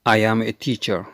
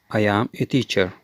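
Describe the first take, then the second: No difference in how they are said.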